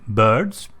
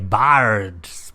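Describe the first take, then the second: First: The vowel sounds like a rounded 'ö'. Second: The vowel sounds like a clear 'i'. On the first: The speaker calls it right. "You are using an ö" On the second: The speaker calls it wrong. "You don't say birds"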